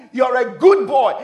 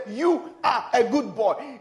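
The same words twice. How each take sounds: First: Loud, high praise to a son; loud affirmation. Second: Put-on "You are a good boy" slowly, each word separate; slow insistence. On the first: Retold or imitated. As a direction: declare it firmly and loudly. Father affirming his son, first take. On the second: Father insisting after son's denial.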